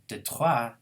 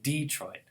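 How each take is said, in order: First: The stress is on the second syllable. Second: The stress is on the first syllable. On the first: It keeps the original French pattern. "This is the original French stress pattern" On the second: It follows an English stress pattern. "to stress the first syllable"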